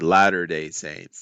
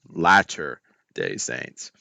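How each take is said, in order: First: The first word has a d sound, like ladder. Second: The first word has a t sound, like latter. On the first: This is how it was said in childhood. The speaker calls it wrong. "I would say" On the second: This is the intended name. The speaker calls it right. "instead of"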